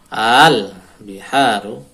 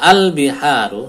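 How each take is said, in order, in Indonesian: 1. Vokal pertama panjang. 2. Vokal pertama pendek. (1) "Ada tanda panjangnya" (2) "Jadi tidak dibaca al-biharu"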